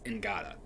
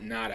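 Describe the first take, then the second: First: The name starts with an NG sound. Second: The name starts with a plain N sound. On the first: The speaker calls it right. "it's Ngata" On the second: The speaker calls it wrong. "but it's not Nada"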